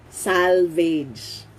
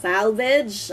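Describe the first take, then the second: First: Salvage with second syllable like "vayj"; Filipino-style pronunciation. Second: Salvage with short second vowel, "SAL-vij"; correct pronunciation. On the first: Teacher introducing the next word, Filipino-style salvage as "SAL-veydge". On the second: Teacher modelling the English word, salvage as "SAL-vidge". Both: Shown as a demonstration. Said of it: "that's the correct pronunciation".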